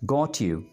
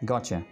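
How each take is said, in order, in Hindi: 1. दोनों शब्द अलग-अलग बोले जाते हैं। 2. शब्द मिलकर एक शब्द बन जाते हैं।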